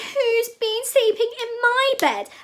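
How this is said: It is said in a tiny, teeny voice. "cried Teeny Weeny Baby Bear in his teeny weeny voice"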